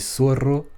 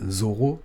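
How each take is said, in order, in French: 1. Il commence par un s sifflant. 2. Il commence par un z sonore, qui vibre. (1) "comme on dirait plus euh, dans les pays, dans certains pays d'Amérique" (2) "comme on dirait en français"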